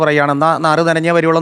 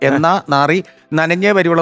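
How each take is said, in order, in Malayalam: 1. ഈ വാചകം ഇടവേളകളില്ലാതെ സ്വാഭാവികമായി ഒഴുകുന്നു. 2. ഈ വാചകം ഇടവേളകൾ കൊണ്ട് മുറിഞ്ഞിരിക്കുന്നു. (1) "സ്വാഭാവികമായിട്ട് തെറ്റില്ല" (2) "അത് നിർത്തി പറഞ്ഞാൽ"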